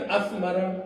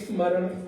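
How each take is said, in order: First: An extra 'a' vowel is added before 'sm'. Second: The word starts directly with the 'sm' cluster. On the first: The speaker calls it wrong. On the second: The speaker calls it right.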